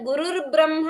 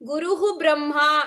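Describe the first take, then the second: First: The words join with an r sound between them. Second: The words are separated with a breathy h sound. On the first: "ಗುರುರ್ ಬ್ರಹ್ಮ ಇತಿ ಪಠಿತುಂ ಶಕ್ಯತೆ" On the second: "नो चेत् गुरुः ब्रह्मा इति वक्तव्यम्"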